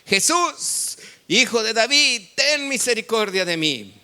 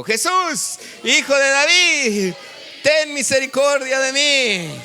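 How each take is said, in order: First: High, raised voice in scripture reading; loud plea, short of full shout; crying out. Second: Loud, high, drawn-out cry for mercy; slow, pleading yell at full force; full shout. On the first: Acted. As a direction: call out pleadingly to Jesus. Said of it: "comenzó a dar voces". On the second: Shown as a demonstration. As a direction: shout it for a congregation to join. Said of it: "grítelo conmigo".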